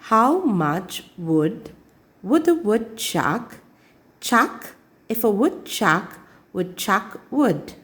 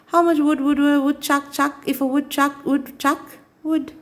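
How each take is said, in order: First: It is said very slowly. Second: It is said fast.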